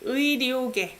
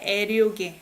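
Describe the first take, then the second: First: The first vowel is said like 'ui'. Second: The first vowel is said like 'ae'. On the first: The speaker calls it right. "It's 의료계" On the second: The speaker calls it wrong. "So you don't say 애료계"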